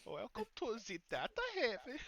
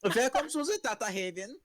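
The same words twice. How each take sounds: First: High, heavy mock German accent. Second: Mimicked German accent. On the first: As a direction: greet like a German vendor. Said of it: "heavily accented German". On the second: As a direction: echo the German greeting. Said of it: "as offensively German as you want".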